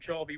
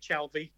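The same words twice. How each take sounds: First: The L is nearly silent in the word. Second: The L is clearly sounded in the word. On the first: This is how locals say the name. "the way that anyone from Chalvey would pronounce it" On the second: This is how outsiders say the name. "most people will say Chalvey"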